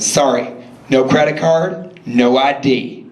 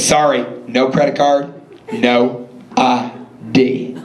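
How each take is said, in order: First: It is said at normal speed. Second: It is said slowly.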